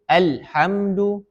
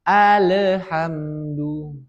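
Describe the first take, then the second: First: The l sound is abruptly cut off. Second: The l sound gets a bouncing echo vowel. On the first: "Diputus, tidak ada alirannya"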